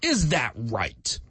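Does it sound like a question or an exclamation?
exclamation. It is said as a forceful exclamation.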